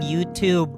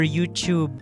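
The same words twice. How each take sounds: First: It is said with an American pronunciation. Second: It is said with a British pronunciation. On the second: "British English"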